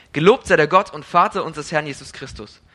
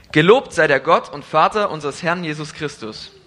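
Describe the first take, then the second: Both takes have the same delivery.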